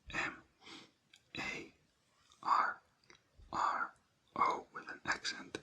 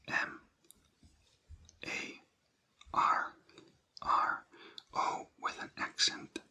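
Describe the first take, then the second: No difference in how they are said.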